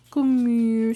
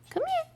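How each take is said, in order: First: Firm call. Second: Much higher, sing-song call to the dog; high puppy-call sing-song; high coaxing call. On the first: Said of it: "repeated call, firmer". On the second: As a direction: coax the dog in a lifted voice. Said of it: "first call, high". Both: Real, not acted.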